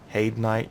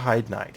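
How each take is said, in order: First: The first word rhymes with 'made'. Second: The first word rhymes with 'ride'. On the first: The speaker calls it right. "I think it's Hade" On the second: The speaker calls it wrong. "I think I'm actually saying that wrong"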